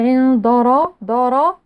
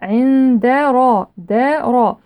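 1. صوت الدال غليظ ومفخم. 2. صوت الدال رقيق وغير مفخم. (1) "ولا نفخم الدال، لا نقول" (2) "لا، عند را دارا"

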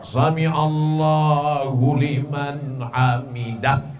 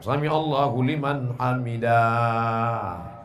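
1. Vokal-vokalnya dibaca pendek semua. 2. Sebuah vokal dibaca panjang. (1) "Pendek, enggak ada alifnya di situ" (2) "Ini kadang ada yang panjang"

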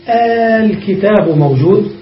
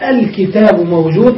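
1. الحركة الأولى تُمَدّ حتى تصير صوتا طويلا واحدا. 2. الهمزتان تُنطقان كاملتين وواضحتين. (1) "تمد همزة الوصل ... فنقول الكتاب موجود للمد" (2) "لا يجوز نطق الهمزتين ... الكتاب موجود ممنوع لا يجوز"

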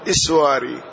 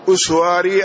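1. يبدأ الاسم بالحركة 'i'. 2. يبدأ الاسم بالحركة 'u'. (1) "وحكي كسرها" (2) "هو بضم الهمزة"

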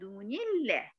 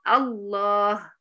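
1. الكلمة تتصل بالكلمة التي قبلها بصوت 'ni'. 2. الكلمة تبدأ بذاتها بصوت 'a'. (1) "ليه حركت النون الساكنه دي بالكسر؟" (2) "هتبقى مفتوحة وهتبقى الله"

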